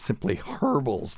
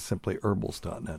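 First: It is said in a British accent. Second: It is said in an American accent. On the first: "as they would say in the UK" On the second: "it's actually simplyherbals.net"

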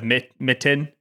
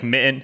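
First: The middle T is clearly pronounced. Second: The middle T is reduced and muddy. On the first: The speaker calls it right. "instead of mitten" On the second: The speaker calls it wrong. "I'll say, like, mitten"

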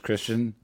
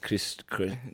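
First: The name is said in an ordinary English accent. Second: The name is said in a German accent.

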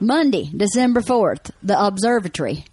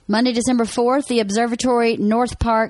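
First: It is said in a Southern country accent. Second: It is said in a plain, neutral accent.

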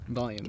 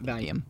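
First: The word is said as standard 'volume'. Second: The word is said to sound like 'valium'. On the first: The speaker calls it right. "Volume, not valium" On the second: The speaker calls it wrong. "not valium"

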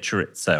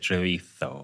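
First: The word is said with English sounds. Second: The word is said with Spanish sounds. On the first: The speaker calls it right. "I'd anglicise it" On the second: The speaker calls it wrong. "I wouldn't say chorizo"

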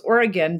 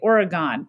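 First: Pronounced the way local residents say it. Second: Pronounced the way outsiders often say it. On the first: The speaker is from the state. The speaker calls it right. "if you're from Oregon, it's Oregon" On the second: The speaker is not from the state. The speaker calls it wrong. "if you're not from Oregon, you sometimes say Oregon"

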